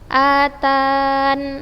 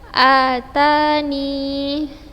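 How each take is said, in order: First: The word ends on a bare n sound. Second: The word ends with a short i sound. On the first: "atau membuang ya" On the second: "Bisa menetapkan ya"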